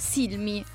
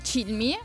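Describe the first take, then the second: First: The name begins with an 's' sound. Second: The name begins with a 'ch' sound. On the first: The speaker calls it right. "essendo americano loro dicono Silmi" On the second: The speaker calls it wrong. "non si dice Chilmi"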